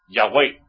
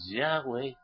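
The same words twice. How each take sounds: First: The stress is on the second syllable. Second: The stress is on the first syllable. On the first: The speaker calls it wrong. "Le ponen el acento en la E" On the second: The speaker calls it right. "En vez de decir Yahweh"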